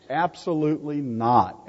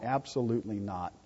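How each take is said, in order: First: Said in the usual way. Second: A softer, lower echo of the answer; murmured repeat; quiet echo. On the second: Real, not acted. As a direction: drop it down for emphasis. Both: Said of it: "repeated answer".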